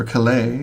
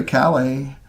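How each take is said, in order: First: Calais stressed on the last syllable, ca-LAY; corrected stress. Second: Calais stressed on the first syllable, CAL-ay; British-style stress. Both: Shown as a demonstration. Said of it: "the British put the emphasis on the wrong syllable".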